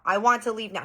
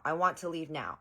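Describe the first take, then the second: First: Higher, louder mock demand; retold demand, raised in pitch and volume; louder tantrum demand. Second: Said in the usual way. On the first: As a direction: imitate a tantrum getting louder. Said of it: "He starts getting louder and louder".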